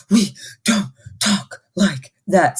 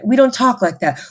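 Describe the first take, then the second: First: Slow, each word pushed on a huff; mock huffy breath on every word; huffing and puffing. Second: Said in the usual way. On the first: Shown as a demonstration. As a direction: chop We don't talk like that into puffed bursts. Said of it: "demonstrated huffing".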